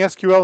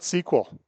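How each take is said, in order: First: Each letter is said separately: S, Q, L. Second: It is said as one word, like sequel. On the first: "I'm saying S Q L" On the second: "and not S Q L"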